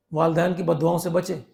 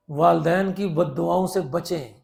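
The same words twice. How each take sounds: First: Said in the usual way. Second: Slow repeat. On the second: Shown as a demonstration.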